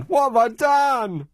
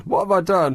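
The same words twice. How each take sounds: First: High, drawn-out wounded protest; exaggerated plaintive protest; mock outrage. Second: Mildly protesting, a touch higher; put-on puzzled protest; mock bewilderment. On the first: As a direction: ham up the wronged innocent, slow and high. Repeats it as hammed-up protest. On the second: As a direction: play the wronged innocent lightly. Host feigns hurt after telling-off.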